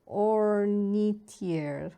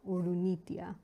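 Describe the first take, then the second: First: The name is said with English-style sounds. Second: The name is said with Japanese-style syllables.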